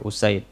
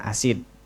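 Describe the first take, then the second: First: The name begins with an u vowel. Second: The name begins with an a vowel. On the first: The speaker calls it right. "Usaid, bukan asid" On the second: The speaker calls it wrong. "bukan asid"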